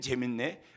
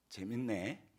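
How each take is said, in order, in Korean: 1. 진심으로 기쁘고 신나게 들려요. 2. 비꼬는 듯하고 조용히 위협하는 느낌으로 들려요. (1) "말 그대로 재밌다라는 겁니다" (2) "눈을 개슴츠레하게 뜨면서 이렇게 얘기합니다"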